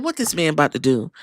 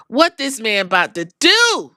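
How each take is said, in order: First: Fast, lower, softer muttered question; quick low mutter. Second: Said in the usual way. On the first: Retold or imitated. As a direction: rush it under your breath. Asks the same thing twice.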